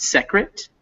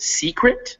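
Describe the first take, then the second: First: "secret" said wrongly as SECK-rit; short eh in the first syllable of "secret"; mispronounced short E. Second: "secret" said SEE-krit, drawn out; slow "secret" with a long ee in front. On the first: Teacher showing the reader's mistake, short E. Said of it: "it's secret, not secret". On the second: Teacher correcting a reader's word, long E. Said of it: "not secret". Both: Shown as a demonstration.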